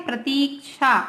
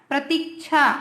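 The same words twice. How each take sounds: The two takes are said the same way.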